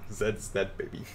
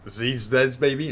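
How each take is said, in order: First: The letter is pronounced zed, British style. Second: The letter is pronounced zee, American style. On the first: The speaker calls it right. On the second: The speaker calls it wrong.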